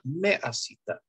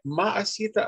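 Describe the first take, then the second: First: The first vowel sounds like 'e'. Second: The first vowel sounds like 'a'. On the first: The speaker calls it right. "а правильно меасита" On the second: The speaker calls it wrong. "не маасита"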